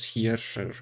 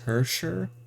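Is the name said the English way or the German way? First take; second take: German; English. First: The name is said with a German-style pronunciation. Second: The name is said with an English-style pronunciation. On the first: "the actual pronunciation" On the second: "for the sake of keeping it English and easier"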